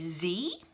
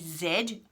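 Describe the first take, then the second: First: The letter is said the American way, zee. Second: The letter is said the Australian way, zed.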